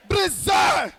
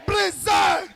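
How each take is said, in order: Both takes have the same delivery.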